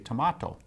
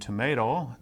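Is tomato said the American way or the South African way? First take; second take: South African; American. First: It is said with a South African pronunciation. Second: It is said with an American pronunciation. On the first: "they would they say tomato" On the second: "rather than saying tomato, as we would in the U S"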